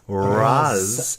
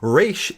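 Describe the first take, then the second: First: The name is said the Arabic way. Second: The name is said the Hebrew way. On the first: "In Arabic, it is pronounced Raz Al Ghul" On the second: "Resh is the Hebrew pronunciation"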